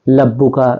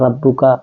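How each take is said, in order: First: The word begins with an l sound. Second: The word begins with an r sound. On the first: The speaker calls it wrong. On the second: The speaker calls it right.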